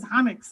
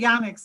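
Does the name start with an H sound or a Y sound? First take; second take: H sound; Y sound. First: The name starts with an H sound. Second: The name starts with a Y sound. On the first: This is how the person himself says it. The speaker calls it right. "but I guess he says Hanix" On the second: This is how the speaker usually says it. The speaker calls it wrong. "I always say Yanix"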